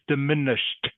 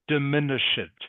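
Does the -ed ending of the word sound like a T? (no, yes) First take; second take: yes; no. First: The -ed ending sounds like a T. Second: The -ed ending does not sound like a T. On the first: The speaker calls it right. "the ed is pronounced like a T" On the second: The speaker calls it wrong. "so it is not diminished. Okay, that is not correct"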